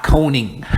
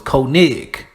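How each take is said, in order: First: "Koning" as KOH-ning; mistaken pronunciation. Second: "Koenig" slowly as KOH-nig; corrected pronunciation. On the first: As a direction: end "Koning" in "-ing". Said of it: "not Koning". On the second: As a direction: end "Koenig" on a hard g. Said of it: "So it's Koenig". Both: Shown as a demonstration.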